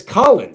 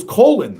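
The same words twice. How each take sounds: First: "Colin" said COLL-un, with an open ah; short-o pronunciation. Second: "Colin" said COH-lin, with a long o; long-o pronunciation. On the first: Reader correcting the kid's name, "Colin" as COLL-un. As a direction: say "Colin" with first syllable like doll. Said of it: "C O L L U N". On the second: Reader recalling the old name, "Colin" as COH-lin. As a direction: say "Colin" with first syllable like coal. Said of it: "but it's Colin". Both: Shown as a demonstration.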